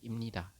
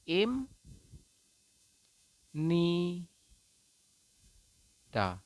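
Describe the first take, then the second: First: It is said quickly as one word. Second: It is said slowly, syllable by syllable.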